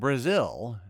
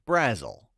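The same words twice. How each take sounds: First: Brazil is said the usual, well-known way. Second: Brazil is said the local Indiana way. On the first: This is the common way to say the name. "another Indiana town, Brazil" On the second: This is how a local resident says the name. "as Brazil"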